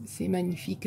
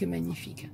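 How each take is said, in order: First: Said in the usual way. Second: Breathed softer, dreamy repeat of magnifique; soft echo. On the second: Real, not acted. To viewers over gifted cutouts, a softly echoed magnifique. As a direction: let magnifique fade away, marvelling. Admiring a friend's paper cutouts.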